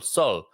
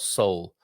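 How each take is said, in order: First: The vowel is an open O, as in 'Oscar'. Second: The vowel is a closed glide, like English 'soul'. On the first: The speaker calls it right. "Open the O out" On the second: The speaker calls it wrong. "not soul, as that what is what it sounds like when you say it"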